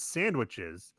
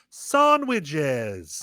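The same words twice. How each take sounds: First: It is said in a plain, ordinary accent. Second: It is said in the kid's odd accent.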